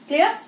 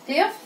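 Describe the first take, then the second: No difference in how they are said.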